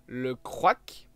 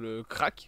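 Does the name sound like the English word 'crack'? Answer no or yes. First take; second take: no; yes. First: The name does not sound like 'crack'. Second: The name sounds like the word 'crack'. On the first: This is probably the proper pronunciation. "je pense que c'est comme ça que ça se dit" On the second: It is said that way because it is funny. "c'est le même nom que la drogue"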